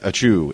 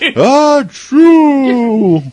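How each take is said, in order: First: The sneeze sound is said quietly and plainly. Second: The sneeze sound is yelled loudly and forcefully. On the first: "it's not just like a chew" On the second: "when they sneeze, they yell"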